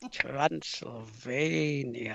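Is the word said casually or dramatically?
dramatically. The word is said in a spooky, theatrical way. The place is treated as eerie and mysterious. The speaker calls it right. "I'll give it a go"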